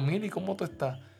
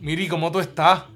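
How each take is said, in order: First: It is said in a warm, friendly tone. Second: It is said in a cold, unfriendly tone.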